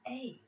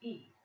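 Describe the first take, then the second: First: The letter is named with a Dutch vowel. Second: The letter is named with an English vowel. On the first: "we say A, B, C, D, A" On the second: "When you say A, B, C, D, E"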